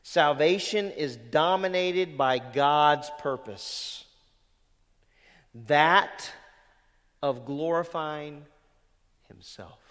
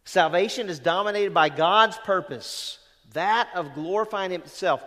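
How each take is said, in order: First: Slow, weighty reading of the quote; first measured read of the quote; slow deliberate reading. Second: Louder, driving restatement of Salvation is dominated by God's purpose; preacher repeats the line to make it land; emphatic repeat. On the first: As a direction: lay out Salvation is dominated by God's purpose word by word. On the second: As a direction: hammer the quote home a second time. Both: Shown as a demonstration. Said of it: "You get that?".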